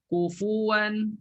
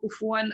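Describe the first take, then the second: First: The 'fu' syllable is pronounced fully and clearly. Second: The 'fu' syllable is reduced to a breath of air. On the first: The speaker calls it right. "kufu kena letak fu" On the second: The speaker calls it wrong. "bukan lalu je letak angin je"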